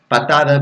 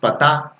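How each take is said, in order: First: All three syllables are said in standard Spanish. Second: The 'da' is dropped, in Chilean style.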